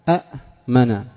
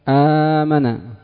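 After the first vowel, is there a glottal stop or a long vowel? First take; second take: glottal stop; long vowel. First: A second glottal stop follows the first vowel. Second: The first vowel is long, with no second glottal stop. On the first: This is the original underlying form. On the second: This is the form actually used.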